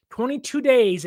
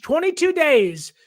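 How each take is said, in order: First: Said in the usual way. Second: "Twenty-two days" punched higher; emphatic. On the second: Real, not acted. Host reads a fan's wedding countdown, emphatic.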